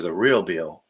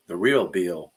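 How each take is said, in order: First: Said in the usual way. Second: A playful touch of a Southern accent on "real Bill"; little Southern accent. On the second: Shown as a demonstration. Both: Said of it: "I said that with a little Southern accent".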